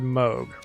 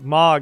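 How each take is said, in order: First: The first vowel is a long 'oo' sound. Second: The first vowel is a short 'o' sound. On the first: "And he said Moog" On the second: "Mog is usually how I say it"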